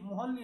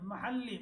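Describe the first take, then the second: First: The first vowel sounds like a rounded 'o'. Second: The first vowel sounds like an open 'a'. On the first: The speaker calls it wrong. "মোহাল্লি না" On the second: The speaker calls it right.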